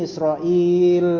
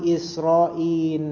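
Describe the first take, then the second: First: The name ends with an l sound. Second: The name ends with an n sound. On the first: "Dengan ya diantara hamzah dan lam" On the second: "Lamnya diganti nun"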